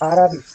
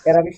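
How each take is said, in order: First: The first vowel is an open 'ah' sound. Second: The first vowel is a flat 'cat' sound. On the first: The speaker calls it right. "আরা, আ করছেন না" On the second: The speaker calls it wrong. "অ্যারাবিশ না"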